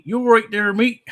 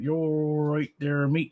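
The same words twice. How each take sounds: First: Much higher and louder, fast; bright shouted agreement; high loud retort. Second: Put-on slow thick accent. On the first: Pretend. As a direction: fire it back up high and loud. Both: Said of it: "you are really slow and thick accent".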